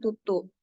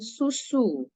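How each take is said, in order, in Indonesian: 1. Kedua suku kata diawali bunyi t. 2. Kedua suku kata diawali bunyi s. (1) "bukan tutu" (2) "harusnya dia mengatakan susu"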